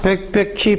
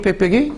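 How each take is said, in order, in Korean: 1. 끝소리는 h 소리가 납니다. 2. 끝소리는 h 소리가 나지 않습니다.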